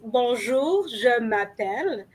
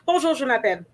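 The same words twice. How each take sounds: First: It is said slowly with exaggerated, careful articulation. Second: It is said quickly and casually, run together. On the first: "I'm overly pronouncing it so that you can understand and clearly hear what I'm saying" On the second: "that would probably be a little too fast"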